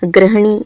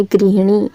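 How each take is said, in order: First: गृहिणी said as 'grah-nee'; short 'a' after 'gr' in गृहिणी; incorrect pronunciation. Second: गृहिणी said as 'grih-nee'; an 'i' after 'gr' in गृहिणी; corrected pronunciation. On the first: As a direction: say गृहिणी with 'gra' at the start. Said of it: "शुद्ध रूप नहीं है". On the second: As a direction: say गृहिणी with 'gri' at the start. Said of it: "कौन सा शुद्ध रूप है". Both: Shown as a demonstration.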